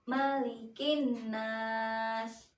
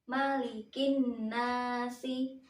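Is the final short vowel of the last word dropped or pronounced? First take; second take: dropped; pronounced. First: The last word stops without its final vowel. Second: The last word keeps its final short vowel.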